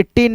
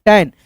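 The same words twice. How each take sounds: First: टेन said with a short e like ten; wrong e vowel. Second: टैन said with an open ae like tan; correct ae vowel. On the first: Teacher models the wrong टेन for students. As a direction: read टेन with the plain e sound. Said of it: "टेन नहीं दोस्तों". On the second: Teacher gives the right टैन to students. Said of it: "ठीक है, टैन". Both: Shown as a demonstration.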